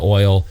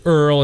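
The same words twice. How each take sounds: First: Said in the usual way. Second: "Earl" with an r-coloured vowel replacing oy; OIL pronounced EARL. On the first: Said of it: "instead of". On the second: Shown as a demonstration. Grandfather's old-time pronunciation, oil said as "Earl". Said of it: "They say "Earl" instead of "oil".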